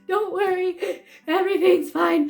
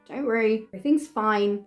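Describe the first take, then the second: First: It is said in a shaky, nervous voice. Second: It is said in a calm, reassuring voice. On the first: The speaker is actually frightened despite the words. "it just doesn't sound very believable when they hear it come out as" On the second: The speaker means to reassure that all is well. "I will tell the person that's gonna jab me, like"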